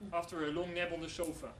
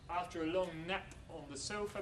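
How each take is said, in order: First: The p in nap is voiced like b. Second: The p in nap stays voiceless.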